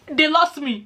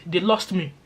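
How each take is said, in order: First: Much higher, just after a laugh; amused repeat. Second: Said in the usual way. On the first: Real, not acted. Telling viewers about losing track of colleagues' chat, amused repeat. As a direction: repeat it tickled, pitched right up.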